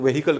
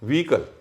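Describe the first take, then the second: First: An h sound is heard in the middle. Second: The h in the middle is silent. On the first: The speaker calls it wrong. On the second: The speaker calls it right.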